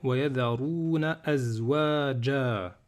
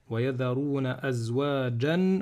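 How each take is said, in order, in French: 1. Le dernier mot se termine par une voyelle a longue. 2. Le dernier mot se termine par un son n. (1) "si je m'arrête, je vais dire" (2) "si je fais la liaison"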